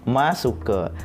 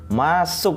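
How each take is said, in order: First: The word ends with an added final vowel sound. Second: The word ends cleanly on the final consonant. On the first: The speaker calls it wrong. "Jadi kita baca masuke sekali ini nggih" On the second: The speaker calls it right. "Nah niki baru benar"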